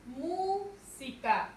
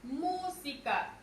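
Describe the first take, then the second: First: «música» muy lenta, MÚ larga, pausa, luego «sica»; sílaba tónica MÚ separada. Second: «Música» lenta, con MÚ alargada; acento en MÚ. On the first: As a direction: separa MÚ del resto de «música». («música» partida tras la sílaba tónica) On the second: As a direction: carga la voz en la primera sílaba de «Música». («Música» con MÚ bien marcada) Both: Shown as a demonstration. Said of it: "Su mayor fuerza de voz es mu".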